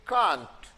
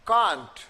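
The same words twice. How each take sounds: The two takes are said the same way.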